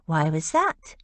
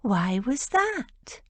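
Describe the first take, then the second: First: Said in the usual way. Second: Slow, higher, syrupy teasing question; mock-sweet coo. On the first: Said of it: "Lily pointed out". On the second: A narrator's reading. Rose needling George with false sweetness, slow mocking coo. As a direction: drag it out sweetly to needle her. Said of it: "Rose cooed".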